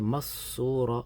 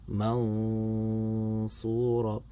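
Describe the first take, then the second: First: The n is dropped entirely between syllables. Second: The n is hidden with a held nasal sound. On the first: The speaker calls it wrong. "don't pronounce the noon, I just go straight from the mim to the sad, it becomes idgham" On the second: The speaker calls it right. "So here is the way we read it"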